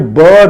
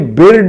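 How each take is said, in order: First: The vowel sounds like a short 'uh'. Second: The vowel sounds like a short 'ih'. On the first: The speaker calls it right. "ये बर्ड होता है" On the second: The speaker calls it wrong. "ये बिर्ड नहीं होता"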